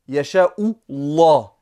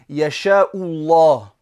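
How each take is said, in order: First: The L in Allah is heavy and deep. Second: The L in Allah is heavy and deep.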